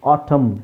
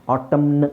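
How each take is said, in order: First: ಆಟಮ್ with silent final n; correct pronunciation. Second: ಆಟಮ್ನ್ with the final n sounded; wrong pronunciation. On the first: Teacher showing the silent N, correct pronunciation. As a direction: end ಆಟಮ್ on a closed m. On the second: Teacher showing what we don't say, wrong pronunciation. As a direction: add an audible n after m in ಆಟಮ್ನ್. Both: Shown as a demonstration. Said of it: "ಅಂತ ಹೇಳಲ್ಲ".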